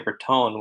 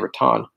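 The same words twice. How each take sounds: First: It is said closer to a Spanish pronunciation. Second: It is said with an anglicized pronunciation. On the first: This is how locals say it. "which is closer to the original Spanish pronunciation" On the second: This is how outsiders say it. "people who aren't familiar with it say Raton"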